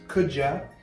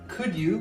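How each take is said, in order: First: The d and y blend into a j sound. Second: The d and y sounds stay separate.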